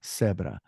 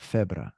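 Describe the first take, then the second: First: The word begins with an s sound. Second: The word begins with a th sound. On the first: This is how it is said in Latin America. "La seta is pronounced like an S" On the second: This is how it is said in Spain. "In Spain, it's pronounced like a T H"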